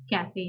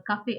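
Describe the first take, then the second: First: Said in the usual way. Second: Cafe with an open "ah", "kah-feh"; German pronunciation. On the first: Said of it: "cafe in English". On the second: Shown as a demonstration. Teacher giving the German word before the English, cafe as "kah-feh". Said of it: "cafe as in cafe in English".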